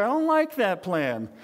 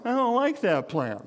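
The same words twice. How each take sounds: First: Said in the usual way. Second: Mock whiny grumble about the plan. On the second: Shown as a demonstration. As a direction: whine it like a sulky kid. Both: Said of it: "you say it in a whiny voice".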